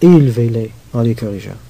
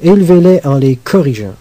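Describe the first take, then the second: First: It is said in a warm, spiritual tone. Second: It is said in a stern, legalistic tone.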